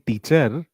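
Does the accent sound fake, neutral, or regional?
regional. It is said with a strong regional native-language accent. The speaker calls it wrong. "You will stop saying"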